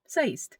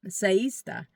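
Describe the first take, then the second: First: It is said fast as one merged syllable. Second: It is said slowly with both words distinct.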